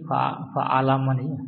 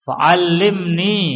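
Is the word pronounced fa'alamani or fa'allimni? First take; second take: fa'alamani; fa'allimni. First: It has single l and vowels a-a-a before ni. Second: It has a doubled l followed by an i. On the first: The speaker calls it wrong. "karena tadi apa tadi fa'alamani" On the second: The speaker calls it right. "dibetulkan di situ harokatnya"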